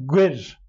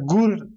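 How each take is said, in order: First: The vowel is close to an ö sound. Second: The vowel is a plain back u sound. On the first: The speaker calls it right. "Em dibêjin gwer" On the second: The speaker calls it wrong. "Mesela gur kimse demez"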